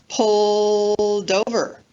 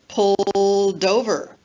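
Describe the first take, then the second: No difference in how they are said.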